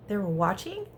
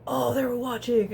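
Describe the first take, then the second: First: Gasp, then a questioning realization; surprised question after a gasp; mock surprise. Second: Louder mock-bro exclamation; big "oh" of dawning realization. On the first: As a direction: imitate boys just catching on. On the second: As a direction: imitate guys reacting loudly, falling at the end. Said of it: "they're very bro-y about it".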